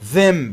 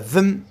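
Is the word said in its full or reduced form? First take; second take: full; reduced. First: The vowel is full and clearly pronounced. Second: The vowel is reduced and weak.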